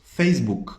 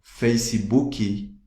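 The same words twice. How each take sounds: First: "Facebook" compact, no added end vowels; English pronunciation. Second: "Facebook" slowly as "feisi-buki"; Brazilian adaptation. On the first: Teacher showing what Brazilians don't say, English form. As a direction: say "Facebook" in two syllables, ending on K. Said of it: "aqui no Brasil não falamos". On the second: Teacher showing how Brazilians adapt English, added vowels. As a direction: add ee after both halves of "Facebook", drawn out. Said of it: "sempre adaptamos as coisas". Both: Shown as a demonstration.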